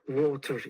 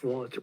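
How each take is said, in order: First: It is said with a Turkish accent. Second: It is said with an American accent. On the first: "in Turkish accent, we say water" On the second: "instead of water"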